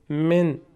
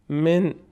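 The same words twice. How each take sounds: No difference in how they are said.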